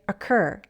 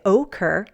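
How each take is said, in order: First: The first vowel is a reduced schwa. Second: The first vowel is a long O sound. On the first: The speaker calls it right. "The O reduces to a schwa sound" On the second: The speaker calls it wrong. "we don't use a long O sound and say occur"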